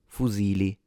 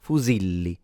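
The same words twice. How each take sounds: First: Fusili with a short single L. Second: Fusilli with a long held double L. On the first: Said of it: "you would have pronounced it". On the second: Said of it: "you pronounce it". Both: Shown as a demonstration.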